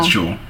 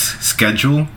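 First: It is said the European way, with 'sh'. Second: It is said the North American way, with 'sk'.

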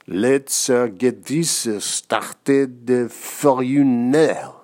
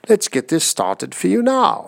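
First: It is said in a funny French accent. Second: It is said in a goofy British accent.

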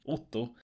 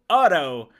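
First: The name is said with Norwegian vowels. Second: The name is said with American-style vowels.

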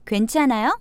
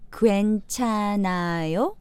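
First: It is said at natural conversational speed. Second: It is said slowly and carefully.

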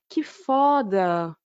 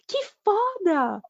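First: It sounds sad and sympathetic. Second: It sounds happy and excited.

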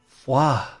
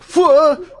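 First: The word is said softly and gently. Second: The word is said quickly and hurriedly. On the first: "Or is it more soft, like foie?" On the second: "Or is it hurried, like foie?"

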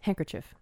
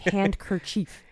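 First: The first part sounds like 'hang' with no d. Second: The first part sounds like 'hand' with a d. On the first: "If you pronounce it handkerchief. Then I might think it's H-A-N-G" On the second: "if you were going to say hand, it would have to be handkerchief"

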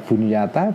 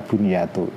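First: The word ends in the vowel a. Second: The word ends in the vowel u. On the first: "bisa bunyata" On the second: "bisa bunyatu"

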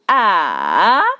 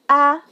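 First: The pitch dips low, then rises. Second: The pitch is short, light and unmarked. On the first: "put a third" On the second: "I will not put anything"

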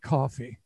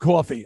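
First: Coffee is said with a neutral accent. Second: Coffee is said with a New York accent. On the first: The speaker calls it right. "I got to go back and say coffee" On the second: The speaker calls it wrong. "that my New York accent just jumped in there"

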